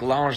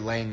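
First: The name starts like the word lingerie. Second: The name is said as plain English lang.

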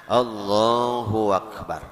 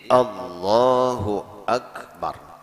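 First: A w-sound joins Allahu to akbar. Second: A clear glottal catch starts akbar. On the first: The speaker calls it wrong. "kaya-kaya ada waw tambahan di tengah-tengahnya" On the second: The speaker calls it right. "harus jelas kita menuturakan dengan kalimat hamzahnya tadi"

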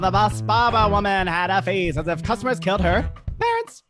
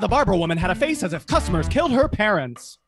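First: It is said like a game show host. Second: It is said like a breaking news anchor.

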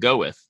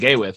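First: The first syllable sounds like 'go'. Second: The first syllable sounds like 'gay'. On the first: The speaker calls it right. "but you pronounce it go with" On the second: The speaker calls it wrong.

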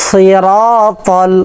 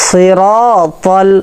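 Both takes have the same delivery.

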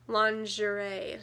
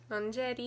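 First: It is pronounced the English way. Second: It is pronounced the Korean loanword way. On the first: "instead of lingerie" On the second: "She said lingerie. Lingerie instead of"

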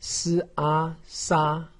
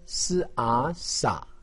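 First: The pitch stays high and level. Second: The pitch dips low then rises. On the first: "一声" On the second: "三声"

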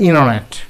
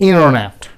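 Both takes have the same delivery.

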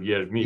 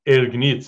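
First: The word begins with a 'ye' glide. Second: The word begins with a plain 'e' vowel. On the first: It is the standard form. "instead of yergnitz" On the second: It sounds like rural dialect speech. "like dialect ergnitz"

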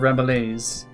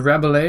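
First: The final S is pronounced. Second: The final S is silent.

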